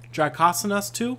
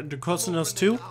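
First: "Dracosinos" with open vowels, "-KAH-suh-nus"; second name attempt. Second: "Dracosinos" with long o's, "-KOH-suh-nohs"; stumbling name attempt. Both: Real, not acted. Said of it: "I am absolutely terrible with names".

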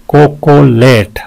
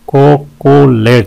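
First: "कोकोलेट" in three held beats; syllable breakdown. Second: "कोकोलेट" in three brisker beats; syllable breakdown. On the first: ("कोकोलेट" तीन हिस्सों में) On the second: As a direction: tap out each syllable of "कोकोलेट". ("कोकोलेट" तीन साफ़ हिस्सों में) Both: Shown as a demonstration. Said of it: "तीन है इसके".

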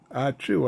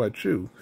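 First: Spoken ah-chew rising a little at the end; spoken sneeze. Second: Spoken sneeze. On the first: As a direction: say ah-chew as a read-aloud sneeze. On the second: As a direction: drop the pitch on the second sneeze. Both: A narrator's reading. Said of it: "sneezed Gonzo".

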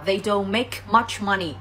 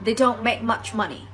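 First: Slow, with the K in "make" fully released; "make" ending in a popped, aspirated K; the wrong way, bursting the K of "make". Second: Slow, with the K in "make" held and never released; "make" ending in a stopped K with no puff of air; the right way, a silent K stop in "make"; unreleased K. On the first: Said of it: "thay vì chúng ta đọc là". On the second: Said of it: "mình sẽ đọc là". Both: Shown as a demonstration.

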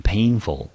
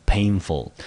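First: Said in the usual way. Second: Painful said on its own, first syllable pain stressed, second syllable ful; isolated model word. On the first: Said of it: "所以这个字我们就念成painful". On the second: Shown as a demonstration. Teacher repeats the word for students, careful model pronunciation. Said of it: "我们就念成painful".

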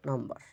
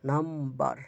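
First: Said in the usual way. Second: নাম্বার in two parts, nam-bar, with the m held; syllable split. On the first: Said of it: "syllable শুরু হলো বার". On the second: Shown as a demonstration. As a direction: break নাম্বার after নাম. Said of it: "একটা syllable শেষ হলো নাম".

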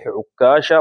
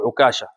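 First: عكاشة said ʕuk-kaasha, with a long k; doubled kaf. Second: عكاشة said ʕu-kaasha, with one short k; single light kaf. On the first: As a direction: hold the k in عكاشة as a double consonant. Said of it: "بالتشديد". (عكاشة بكاف مشددة) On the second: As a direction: keep the k in عكاشة light, not doubled. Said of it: "وبالتخفيف عند بعضهم". (عكاشة بتخفيف الكاف) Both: Shown as a demonstration.

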